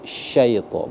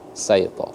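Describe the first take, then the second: First: The word begins with an sh sound. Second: The word begins with an s sound. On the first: The speaker calls it right. "Syaito, bukan saito" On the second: The speaker calls it wrong. "bukan saito"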